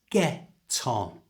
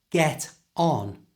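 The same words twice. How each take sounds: First: The t joins smoothly onto the o. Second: The two words are said separately. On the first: The speaker calls it right. "join the consonant sound at the end of get to the vowel sound O" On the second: The speaker calls it wrong. "So it's not get on"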